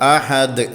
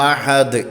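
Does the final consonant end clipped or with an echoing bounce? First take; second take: echoing; echoing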